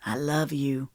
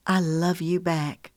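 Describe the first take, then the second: First: Tender male voice. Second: Slow and loving reply; tender. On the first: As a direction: say it softly as him. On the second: Her reply, slowed. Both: A narrator's reading.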